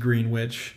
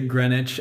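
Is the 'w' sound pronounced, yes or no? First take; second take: yes; no. First: The word is said with a sounded 'w', like 'green-witch'. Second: The word is said with a silent 'w', like 'gren-itch'. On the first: This is how it is read from the spelling. The speaker calls it wrong. "my brain says Greenwich. Yeah. And I'm like, nope, that's not how you say it" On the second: This is how British people say it. The speaker calls it right. "they say Greenwich"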